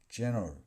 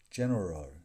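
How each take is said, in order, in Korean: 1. 약한 모음을 빼고 빠르게 발음됩니다. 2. 모든 모음을 살려서 천천히 발음됩니다.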